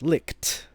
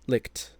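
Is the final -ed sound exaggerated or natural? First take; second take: exaggerated; natural. First: The final T sound is exaggerated and emphasized. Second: The final T sound is light and natural. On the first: "the other two times will be kind of emphasizing that ed" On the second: "the third time pronouncing it as I would normally pronounce it"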